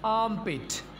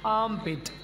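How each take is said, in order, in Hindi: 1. r के बाद सीधे m आता है। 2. r के बाद सीधे m आता है।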